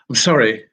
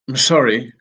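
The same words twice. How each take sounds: Both takes have the same delivery.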